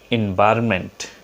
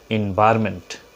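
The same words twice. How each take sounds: Both takes have the same delivery.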